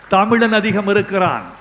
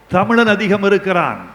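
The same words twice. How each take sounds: The two takes are said the same way.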